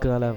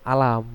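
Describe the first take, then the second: First: It begins with a hard g sound. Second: It begins with a glottal stop and vowel. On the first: This is the Yemeni reading. "membaca ko itu lebih ke go galam gitu" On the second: This is the Egyptian local reading. "dibacanya alif aja gitu"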